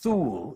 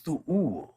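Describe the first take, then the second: First: The vowel is said smoothly without a break. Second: A little pause splits the two vowel sounds. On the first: The speaker calls it wrong. "it is not Thuul" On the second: The speaker calls it right. "it is Thuul, is how it is pronounced, right? So you give a little pause there"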